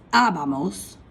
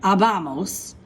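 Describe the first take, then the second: First: Abamos with the stress on the first a; correct pronunciation. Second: Abamos with the stress on the middle ba; wrong pronunciation. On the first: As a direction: say abamos properly, first syllable strong. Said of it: "don't pronounce this abamos. It's abamos". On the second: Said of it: "don't pronounce this abamos". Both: Shown as a demonstration.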